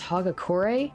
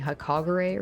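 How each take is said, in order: First: The second consonant is a g sound. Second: The second consonant is a k sound. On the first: The speaker calls it right. "it's pronounced Hagakure?" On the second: The speaker calls it wrong. "I've been pronouncing that wrong this whole time"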